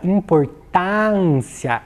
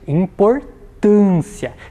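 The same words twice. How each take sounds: First: The stressed vowel is open. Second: The stressed vowel is closed. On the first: The speaker calls it wrong. "Se eu utilizasse neste caso aqui o acento agudo" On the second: The speaker calls it right. "É uma vogal mais fechada"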